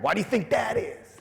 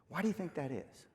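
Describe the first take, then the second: First: The question sounds harsh and critical. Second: The question sounds gentle and nurturing. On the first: The speaker is judging and scolding the listener. The speaker calls it wrong. "you can't say it with your critical parent" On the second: The speaker is caring and a little helpless. The speaker calls it right. "You got to say it with your nurturing parent"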